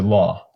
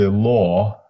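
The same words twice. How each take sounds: First: The vowel is an open, unrounded 'ah'. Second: The vowel is a low, rounded 'aw'. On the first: "they would just say law" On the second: "if you say law"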